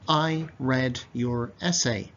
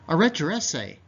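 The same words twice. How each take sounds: First: The words are said carefully and separately. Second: The words are faster with D and Y blended.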